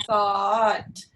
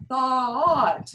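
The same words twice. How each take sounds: First: Thought with the tongue lifted early toward the T, slowed; closed thought. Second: Thought sung open, tongue low and flat, a bit louder. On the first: Choir teacher models the wrong tight vowel, slower. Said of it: "lifting that tongue, anticipating the T". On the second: Choir teacher models the right vowel, open and louder. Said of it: "to keep the mouth open and to keep the tongue low and flat". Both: Shown as a demonstration.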